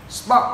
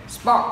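Both takes have the same delivery.

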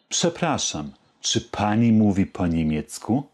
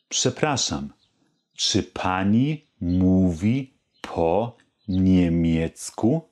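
First: The question is spoken at its fastest. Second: The question is spoken slowly. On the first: "Noch etwas schneller" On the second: "Die ganze Frage langsam"

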